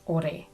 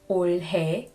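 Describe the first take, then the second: First: It is said fast with sounds run together. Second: It is said slowly with every sound clear.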